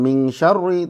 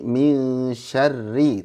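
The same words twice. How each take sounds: First: The r is pronounced heavy and thick. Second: The r is pronounced light and thin. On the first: The speaker calls it wrong. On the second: The speaker calls it right.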